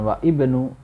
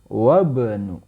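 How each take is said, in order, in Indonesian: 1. Vokal i yang terpisah diucapkan sebelum bnu. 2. Wa langsung menyambung ke bnu tanpa vokal. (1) "bukan wa ibnu" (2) "Wabnu ya"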